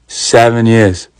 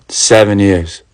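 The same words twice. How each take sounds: First: Seven years drawn out slow in disbelief. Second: Said in the usual way. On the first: Retold or imitated. Narrator repeating the husband's answer in slow disbelief. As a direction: stretch out "Seven years" slowly, stunned.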